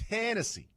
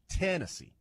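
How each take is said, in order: First: The stress is on the first syllable. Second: The same.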